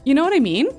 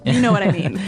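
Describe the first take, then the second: First: It is said as a question, rising. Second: It is said as a statement, falling.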